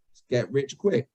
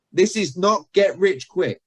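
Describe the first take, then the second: First: What is really heard. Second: Slow, higher denial with "not" stressed; emphatic denial. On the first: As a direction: drop back down, a matter-of-fact undercut. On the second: Coach quoting a seller's disclaimer, slow and emphatic. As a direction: spell out each word, leaning on "not". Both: Shown as a demonstration. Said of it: "they're hearing".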